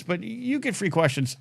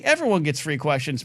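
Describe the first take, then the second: First: "you" stressed and set apart. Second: Said in the usual way. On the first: Shown as a demonstration. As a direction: lean hard on "you".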